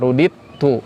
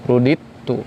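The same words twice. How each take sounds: Both takes have the same delivery.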